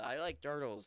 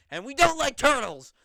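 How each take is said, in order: First: Said in the usual way. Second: High, loud mock scream. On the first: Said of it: "the really old joke". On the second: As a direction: yell it out across the backstage. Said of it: "he screams".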